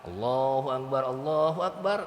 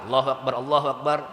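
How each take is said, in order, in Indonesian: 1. Frasa ini diucapkan pelan, dengan jeda. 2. Frasa ini diucapkan cepat, tanpa jeda. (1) "Yang azan pelan-pelan" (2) "kalau iqomah cepat ya"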